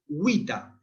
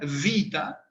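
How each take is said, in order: First: It begins with a rounded w sound. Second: It begins with a lip-teeth v sound. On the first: "la vamos a pronunciar W" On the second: "Como en italiano ... labio dental"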